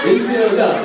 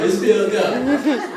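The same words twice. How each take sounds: First: Said in the usual way. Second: Slow, drawn-out words through laughter; laughing slowly. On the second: Real, not acted. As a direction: stretch it out while cracking up. Repeats punchline slowly laughing.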